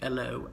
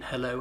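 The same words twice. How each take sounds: First: The word begins without any H sound. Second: The word begins with an audible H sound. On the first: "in the working class London accent, they drop their H's" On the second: "H's are pronounced usually in"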